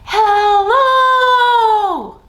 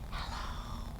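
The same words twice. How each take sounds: First: It is said very loudly. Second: It is said very quietly.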